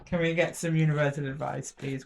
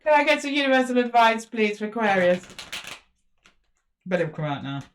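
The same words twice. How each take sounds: First: Softer, gentle polite request; asking nicely. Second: Insistent demand. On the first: Reader now asks Spirit nicely, softer and polite. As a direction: coax it out sweetly. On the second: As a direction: demand it from the cards. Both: Real, not acted. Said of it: "I'm asking nicely, Spirit".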